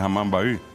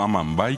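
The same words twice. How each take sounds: First: The name is said with Guarani vowel sounds. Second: The name is said with Spanish vowel sounds. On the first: The speaker calls it right. "que es Amambay" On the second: The speaker calls it wrong. "O Amambay"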